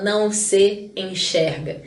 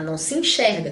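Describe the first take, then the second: First: Each word is said separately, with the s sounds kept. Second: The words run together into one linked chunk. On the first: The speaker calls it wrong. "A gente não fala" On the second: The speaker calls it right. "tudo junto"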